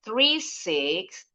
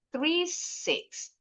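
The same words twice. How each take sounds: First: Very slow "Three six", going up on "six"; rising intonation. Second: Very slow "three six", dropping on "six"; falling final intonation. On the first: Teacher showing the number is not finished, rising intonation. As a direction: leave "Three six" hanging upward, more digits to come. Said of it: "Naik, naik, turun yang terakhir". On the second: Teacher showing the last group of a phone number, falling intonation. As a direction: close "three six" with the voice going down. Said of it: "turun yang terakhir". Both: Shown as a demonstration.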